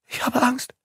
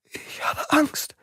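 First: High, trembling with fear; frightened. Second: High, slow, breathless whisper; frightened whisper. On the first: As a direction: say it scared stiff. Suzanne frightened in the dark. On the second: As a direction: whisper it in terror. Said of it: "wiederholte Suzanne". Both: Acted.

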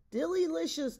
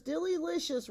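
First: High, loud sing-song rave; raving delight. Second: High sing-song repeat, a bit softer; raving delight, softer echo. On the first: Ogres at the feast drumming spoons, raving delight. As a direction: cheer the dessert like a chant. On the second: Ogres at the feast drumming spoons, echoing cheer. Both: Acted. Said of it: "raved the ogres".

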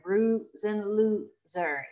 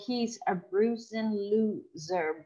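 First: Bruising drawn out slowly; slow repeat to show the sound; slower repeat of the phrase. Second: Slow, careful reading of the example; drawn-out demo line. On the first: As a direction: stretch the sounds of bruising loser. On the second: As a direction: read it out slowly to let the sound ring. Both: Shown as a demonstration. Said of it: "So for example".

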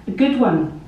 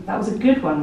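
First: Repeating it a bit louder, insistent. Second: Lightly voiced companion, offhand; casual remark. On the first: Pretend. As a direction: say it again over the noise. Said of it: "they might repeat". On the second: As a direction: say it like a casual compliment. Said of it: "my companion might say".

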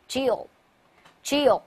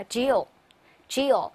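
First: Grill, grill said slowly once more; repeat model reading. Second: Grill, grill said slowly and clearly; slow model reading. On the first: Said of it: "再来一遍". (再慢读一遍grill) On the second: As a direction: model grill, grill for the class to copy. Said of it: "来读一下". (慢速示范grill) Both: Shown as a demonstration.

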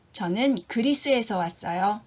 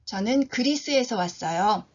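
The two takes are said the same way.

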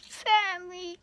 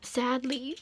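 First: High, exaggerated lament; hammed-up sorrow, pitched way up; mock sadness. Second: Said in the usual way. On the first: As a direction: repeat it as a high-pitched fake whine. Mock lament, repeating the word higher.

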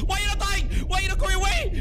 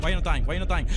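First: High, loud frantic shriek; frantic shouting. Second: Frustrated demand. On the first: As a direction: yell it in desperate frustration. Frustration boils over at enemy. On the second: Frustrated at enemy that survives. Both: Real, not acted.

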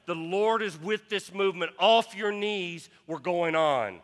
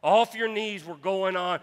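First: Calling the marchers up, a raised shout; retold yell. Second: Full shout of off your knees; preached shout. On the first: Pastor to kneeling marchers: raised mock yell. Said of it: "he yelled". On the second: Real, not acted. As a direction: pastor repeats the cry to the congregation: loud shout. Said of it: "repeated with force".

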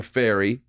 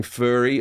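First: "fairy" with an air vowel; meant as fairy. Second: "furry" with an er vowel; misheard as furry. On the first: Comedian corrects the mishearing, "fairy" with an air sound. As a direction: say "fairy" to rhyme with dairy. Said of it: "I'm saying fairy". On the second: Comedian shows what people mishear, "furry" with an er sound. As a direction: say "furry" to rhyme with hurry. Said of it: "people think that I'm saying furry". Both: Shown as a demonstration.

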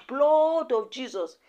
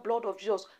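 First: Drawn-out mock cry, pitched up; retold shout. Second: Said in the usual way. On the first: Queen May calls on Jesus against her attackers, mock shout. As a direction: stretch it out slowly like a mild retold shout. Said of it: "Queen May just shout". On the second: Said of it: "As Queen May shout".

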